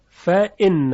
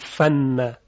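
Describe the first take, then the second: First: The glottal stop is clearly pronounced before inna. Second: The glottal stop is dropped, giving fanna. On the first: The speaker calls it right. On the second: The speaker calls it wrong.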